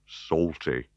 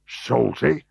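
First: Said in the usual way. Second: Shocked, high rising Salty?; gasped. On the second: Acted. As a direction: gasp out Salty? in disbelief. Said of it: "gasped Fatuus".

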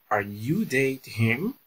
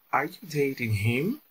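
First: Slow, careful repeat of Are you dating him with a rise at the end; teacher repeating the question slowly for students; slow model question. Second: Said in the usual way. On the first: Shown as a demonstration. Slow, clear rising question. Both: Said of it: "Olha só a pergunta".

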